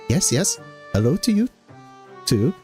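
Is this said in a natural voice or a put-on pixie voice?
pixie voice. It is said in a put-on pixie voice. "I'll do the pixie voice for this one"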